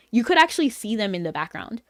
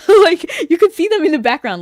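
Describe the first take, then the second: First: Said in the usual way. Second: Bursts out high and loud through a laugh, fast; laughing excitedly. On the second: Real, not acted. Streamer gushing to chat about the hidden comic ending, laughing. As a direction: squeal it with delight, rushing.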